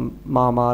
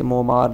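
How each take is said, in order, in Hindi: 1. पहला स्वर 'a' की ध्वनि है। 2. पहला स्वर 'o' की ध्वनि है। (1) "जिसे मोमार या मामार हम पढ़ते हैं" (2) "जिसे मोमार या मामार हम पढ़ते हैं"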